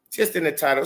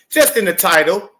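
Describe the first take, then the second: First: Said in the usual way. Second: Louder, pushed "Just in the title"; emphatic. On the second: Shown as a demonstration. Breaking down the song title, emphatic. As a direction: hammer home the point. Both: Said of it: "double, triple, quadruple entendres".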